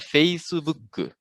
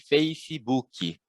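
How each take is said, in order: First: An extra u sound follows the final k. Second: An extra i sound follows the final k. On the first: This is how Japanese speakers say it. "em japonês, esse preenchimento acontece com U" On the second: This is how Portuguese speakers say it. "tende a preencher também, né? Com a letra I"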